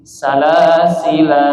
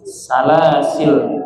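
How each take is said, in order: First: The final l is followed by a long vowel. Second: The word ends on a bare l sound. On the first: "lamnya dibaca pan, panjang, mat asli" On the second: "lamnya dibaca sukun"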